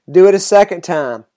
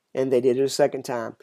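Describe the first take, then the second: First: Firm command. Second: Said in the usual way. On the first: A narrator's reading. Elijah orders water poured on the sacrifice, commanding. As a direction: read as a spoken order.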